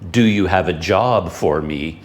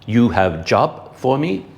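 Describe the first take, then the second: First: It is said in the speaker's plain accent. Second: It is said in his father's Dutch accent.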